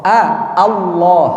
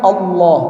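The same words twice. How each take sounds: First: "Allah" starting on a clear open a, slowly; "A, Allah" with the a held open. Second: "Allah" said like "Ollo", rounded o, wrong. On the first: ("Allah" dengan a terbuka) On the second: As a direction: round the first vowel of "Allah" to o. ("Allah" dibaca o, salah) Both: Shown as a demonstration. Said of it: "Bukan Allah".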